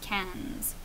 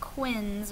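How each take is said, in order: First: It starts with a 'k' sound and 'a' vowel. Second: It starts with a 'kw' sound and short 'i'. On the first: The speaker calls it right. "but cans" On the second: The speaker calls it wrong. "so not quins or anything like that"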